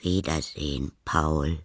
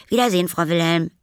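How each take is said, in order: First: Put-on lower, unhurried old neighbour's farewell; Frau Wilhelm. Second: High, loud, quick schoolboy farewell; Paul. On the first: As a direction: answer the boy in a low, calm voice. Old neighbour says goodbye. (ruhiger, tieferer Abschiedsgruß) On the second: Acted. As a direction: call goodbye in a hurry as a boy. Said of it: "rief er". (schneller, hoher Abschiedsruf)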